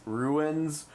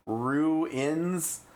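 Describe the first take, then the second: First: "ruins" squeezed to roo-unz with a weak schwa; "ruins" slurred into one and a half syllables, roo-unz; Midwest ruins. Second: "ruins" drawn out in two clear syllables, roo-inz; "ruins" spelled out by ear, roo then inz; careful ruins. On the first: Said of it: "the Midwest accent just butchers it". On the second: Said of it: "R U I N S". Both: Shown as a demonstration.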